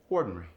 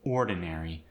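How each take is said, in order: First: The vowel before the final R-Y is dropped. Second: The vowel before the final R-Y is kept.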